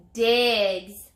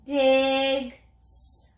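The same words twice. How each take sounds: First: Said in the usual way. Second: "Digs" drawn out, the final S held; stretched word. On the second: Shown as a demonstration. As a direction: stretch "Digs" so the added S stands out. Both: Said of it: "Now let's add the S".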